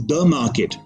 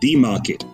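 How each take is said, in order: First: The word the is said with a short vowel. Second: The word the is said with a long vowel. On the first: The speaker calls it right. "But it's" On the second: The speaker calls it wrong. "not the market"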